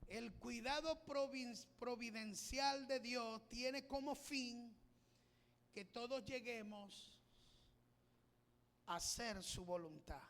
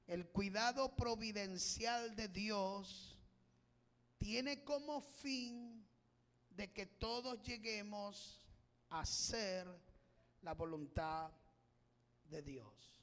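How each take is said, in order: First: It is said at a normal pace. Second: It is said more slowly.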